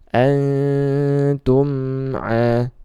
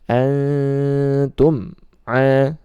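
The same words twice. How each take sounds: First: The m sound flows into the vowel. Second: The m sound stops with a break. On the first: The speaker calls it right. "Mimnya dialirkan sedikit langsung masuk ke huruf ainnya" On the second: The speaker calls it wrong. "ini terputus, ini kurang tepat ya"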